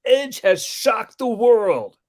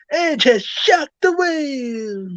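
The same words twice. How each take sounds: First: High, loud, drawn-out big call; excited wrestling commentator. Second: Over-the-top commentator cry, very high; Joey Styles. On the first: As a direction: imitate a commentator's big moment. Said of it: "I think it was Coach who said". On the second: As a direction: stretch it into a wailing, hammed-up call. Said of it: "he said it over the top". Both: Retold or imitated.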